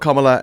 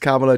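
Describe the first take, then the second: First: It is said the American way, unlike Pamela. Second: It is said like Pamela with a K. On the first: The speaker calls it wrong. "it's not Kamala. It's just that's just a wacky U S accent pronunciation thing" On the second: The speaker calls it right. "it's Kamala, just like Pamela, but beginning with a K"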